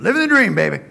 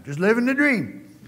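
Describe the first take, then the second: First: Loud and high, stretching out "dream"; demonstrating the catchphrase for the congregation at full volume. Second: Upbeat catchphrase. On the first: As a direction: practice take belted with full gusto. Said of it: "You have to practice a couple". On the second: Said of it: "you try it sometime". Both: Shown as a demonstration.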